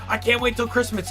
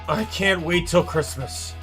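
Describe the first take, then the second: First: The voice sounds eager and excited. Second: The voice sounds tired and fed up. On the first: The speaker looks forward to the day. "as a kid, you grow up and you're like, oh" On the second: The speaker wants the season to be over. "I'm just so physically exhausted"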